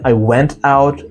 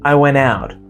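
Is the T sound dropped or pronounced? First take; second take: pronounced; dropped. First: The T in went is pronounced. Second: The T in went is dropped. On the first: "It's not" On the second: "drop T"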